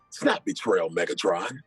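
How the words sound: It is said in a natural everyday talking voice. The speaker calls it right. "just use your regular voice"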